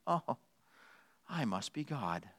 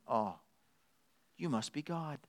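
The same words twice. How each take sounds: First: Very soft, low self-satisfied realization; lightly voiced cat, quietly smug; hushed, lowered voice of a conceited cat; self-important cat. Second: Very soft, humble dog's realization; lightly voiced dog, hushed in worship; soft-spoken adoring dog; awed dog. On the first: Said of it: "Cat says the exact same thing". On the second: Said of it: "A dog says".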